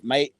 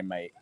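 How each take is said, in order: First: "Mate?" in a put-on accent, closer to "mite", rising; attempted Scottish accent. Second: Said in the usual way. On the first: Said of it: "doesn't sound like a Scottish accent". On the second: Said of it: "in Scotland instead of bruv".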